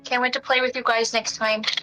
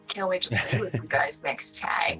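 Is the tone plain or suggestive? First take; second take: plain; suggestive. First: It is said in a plain, friendly tone. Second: It is said in a suggestive, flirty tone.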